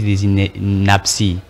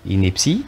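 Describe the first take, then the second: First: The second vowel sounds like 'a', inaptie. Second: The second vowel sounds like 'e', ineptie. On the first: The speaker calls it wrong. "Il dit ici des inapties" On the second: The speaker calls it right. "ça ne se dit pas, c'est ineptie"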